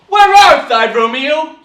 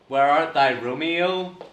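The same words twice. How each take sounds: First: It is said with lively, engaged dramatic energy. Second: It is said flatly, without energy or interest.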